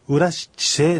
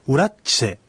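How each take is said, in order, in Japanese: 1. ゆっくり、すべての音節を完全に発音しています。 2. 普通の速さで、真ん中の音節が縮約されています。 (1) "ゆっくり言うとウラシチセ" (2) "普通の速さで発音した場合にはウラッチセと綴まって"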